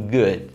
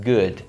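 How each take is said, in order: First: The word ends cleanly on the D sound. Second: The same.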